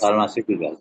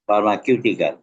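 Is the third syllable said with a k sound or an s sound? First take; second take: s sound; k sound. First: The third syllable starts with an s sound. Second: The third syllable starts with a k sound. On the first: The speaker calls it right. "উচ্চারণটা ফার্মাসিউটিক্যাল" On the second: The speaker calls it wrong. "তুমি উচ্চারণ করছো কি ফার্মাকিউটিক্যাল, তো ফার্মাকিউটিক্যাল হবে না"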